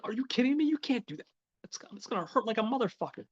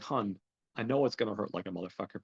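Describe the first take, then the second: First: High-pitched, acted girlfriend voice; incredulous protest. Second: Said in the usual way. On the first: Girlfriend balks at having her tongue ring pulled, incredulous protest. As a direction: protest in a much higher voice, imitating her.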